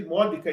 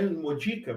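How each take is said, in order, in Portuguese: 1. A sílaba tônica está na segunda sílaba, MO. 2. A sílaba tônica está na terceira sílaba, DI. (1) "estou lendo imódica ... a acentuação fique proparoxítona" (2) "e não imodica"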